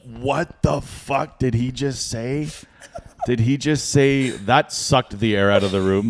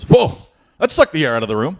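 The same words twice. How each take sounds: First: Slow, stunned incredulous questioning; retold disbelief. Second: Loud high whoa, then brisk quip; breezy auctioneer back on the mic; emcee's reaction. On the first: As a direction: draw out each word in disbelief. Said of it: "and I was like". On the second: Retold or imitated. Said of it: "the M C gets back on".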